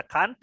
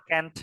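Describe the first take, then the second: First: "can't" with a broad ah vowel; British can't. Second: "can't" with a short front vowel; American can't. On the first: Teacher offering students the first option, "can't" as "kahnt". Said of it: "pronunciation-nya orang Inggris". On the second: Teacher offering students the other option, "can't" as "kent". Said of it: "itu pronunciation-nya orang Amerika". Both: Shown as a demonstration.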